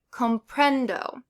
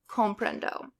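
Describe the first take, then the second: First: Comprendo stressed on PREN, comPRENdo; stress on second-to-last syllable. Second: Comprendo with the stress taken off PREN; misplaced stress. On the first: Teacher showing learners correct stress, comPRENdo. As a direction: punch the middle syllable of comprendo, falling after. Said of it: "stress the second to last syllable". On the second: Teacher showing learners wrongly stressed comprendo, PREN left weak. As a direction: say comprendo wrongly, middle syllable left unstressed. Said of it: "You wouldn't say comprendo". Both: Shown as a demonstration.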